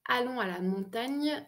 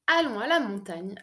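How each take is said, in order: First: The gn sound is drawn out and pushed harder. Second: The gn sound is said plainly, without extra weight.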